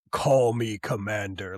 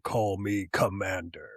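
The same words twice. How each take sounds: First: Lower, slow commanding villain line; villain reveal voice. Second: Lower, slow villain voice with a changed timbre; villain reveal voice. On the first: Retelling the Cobra Commander reveal, lower slow commanding voice. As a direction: drop into the new commander's voice. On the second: Retelling the Cobra Commander reveal again, lower slow villain voice. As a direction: announce your new identity slowly and low. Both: Retold or imitated. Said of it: "his voice completely changes".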